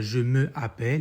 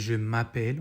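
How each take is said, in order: First: The vowel of 'me' is kept before 'appelle'. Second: The vowel of 'me' is dropped before 'appelle'. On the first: The speaker calls it wrong. "on ne dit pas" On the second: The speaker calls it right.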